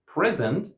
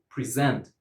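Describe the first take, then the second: First: "present" as PREZ-ent; first-syllable stress. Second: "present" as pri-ZENT; second-syllable stress. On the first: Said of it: "stress on the first syllable". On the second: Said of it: "stress on the second". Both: Shown as a demonstration.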